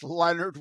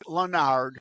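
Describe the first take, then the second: First: The name is said with a plain English pronunciation. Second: The name is said with a French-style pronunciation. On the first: The speaker calls it right. "but it's Leonard without an O" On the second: The speaker calls it wrong. "People want to pronounce it"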